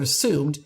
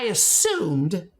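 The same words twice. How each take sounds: First: Said in the usual way. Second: Assumed drawn out slowly and stressed. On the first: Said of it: "emphasize the word assumed". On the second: Shown as a demonstration. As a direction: lean on assumed, slow it down. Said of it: "I want to emphasize the word assumed intentionally".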